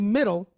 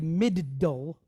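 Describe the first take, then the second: First: The middle consonant is a single short sound. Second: The middle consonant is held long, doubled. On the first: The speaker calls it right. "when we say middle" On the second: The speaker calls it wrong. "we don't say middle"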